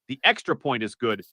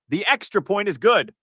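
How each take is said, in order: First: It is said in a flat, unexcited way. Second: It is said in a lively, excited way. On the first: The speaker calls it wrong. "You don't sound excited there" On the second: The speaker calls it right. "Show me that excitement"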